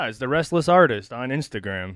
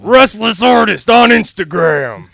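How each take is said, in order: First: It is said in a flat, low-key way. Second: It is said boldly, with loud energy.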